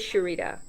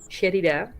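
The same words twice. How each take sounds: First: The name is pronounced the American way. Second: The name is pronounced the Dutch way. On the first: This is how people in the US say it. "in the U S, they say" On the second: This is how people in the Netherlands say it. "here in the Netherlands, everyone calls me"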